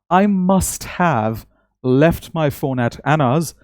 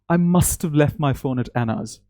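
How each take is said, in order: First: The word 'have' is pronounced fully and separately. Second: The word 'have' is contracted into 'must've'. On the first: "instead of saying" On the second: "you end up saying"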